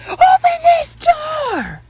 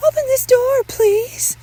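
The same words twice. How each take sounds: First: Very high, drawn-out shriek; screamed demand. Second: Very high, loud plea; urgent motherly demand. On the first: Mother demands son open door, full hysterical scream. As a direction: scream each word slowly at the closed door. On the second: Mother asks son to open door, high loud demand. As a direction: call out insistently, pitched way up. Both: Acted.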